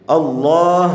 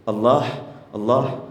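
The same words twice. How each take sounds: First: Allah with a full, loud, clear h; Allah said louder, firm on the h. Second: Allah swallowed lightly at the end. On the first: Preacher showing proper Allah, emphatic. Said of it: "Harus jelas haknya itu". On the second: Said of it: "Kok diringankan lafaz Allah itu?". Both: Shown as a demonstration.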